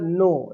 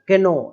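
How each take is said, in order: First: The word begins with an n sound. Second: The word begins with a k sound. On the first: The speaker calls it right. "केवल नो, इस तरीके से ही" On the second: The speaker calls it wrong. "ऐसा नहीं बोलना है"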